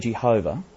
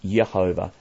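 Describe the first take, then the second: First: The name begins with a J sound. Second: The name begins with a Y sound. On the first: This is the modern English form. "We say Jehovah" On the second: This is the form used before about 1500. "it was always at least Yehovah"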